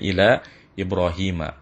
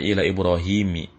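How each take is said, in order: First: The name ends with an 'a' vowel. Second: The name ends with an 'i' vowel. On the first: The speaker calls it right. "tapi dibacanya ila Ibrahim" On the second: The speaker calls it wrong. "tidak dibaca ila Ibrahimi"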